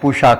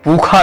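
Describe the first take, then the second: First: The middle consonant is a retroflex sh sound. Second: The middle consonant is a kh sound. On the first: This is the standard retroflex pronunciation. "मूर्धा से शा करते हैं" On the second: This is how northern Vedic reciters say it. "उत्तर के वेद पाठिक खा रूप में करते हैं"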